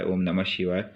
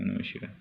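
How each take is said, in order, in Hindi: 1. मंत्र ऊँची आवाज़ में, ज़ोर से बोला जाता है। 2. मंत्र बहुत धीमे से बोला जाता है, लगभग सुनाई न देने जैसे। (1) "हम जब जोर से कर रहे हैं" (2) "ऐसे कहूँगा कि सिर्फ केवल मुझे सुनाई दे"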